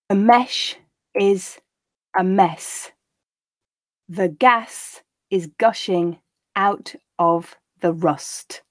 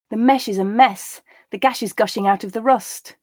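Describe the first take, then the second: First: The sentences are read slowly. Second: The sentences are read at natural speed. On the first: "the first time quite slowly" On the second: "the second time and third time at a more natural pace"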